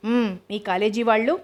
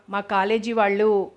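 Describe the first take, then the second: First: వాళ్ళు lifted into a rising question; prompting echo question. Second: Slow, unfinished statement ending on a held వాళ్ళు; unfinished explanation. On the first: Grandmother prompting her granddaughter, questioning rise on వాళ్ళు. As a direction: echo it back, pitch climbing on వాళ్ళు. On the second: Granddaughter starting to explain to grandmother, unfinished, వాళ్ళు drawn out. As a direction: draw out వాళ్ళు, leaving it hanging. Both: A narrator's reading.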